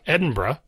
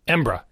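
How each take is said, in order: First: The ending shrinks to one syllable, bruh. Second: The word shrinks to two syllables, embra. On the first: The speaker is in more of a hurry. "Now the Burra becomes Bruh" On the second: The speaker is in a real hurry. "if you're really in a hurry and you're native Scottish"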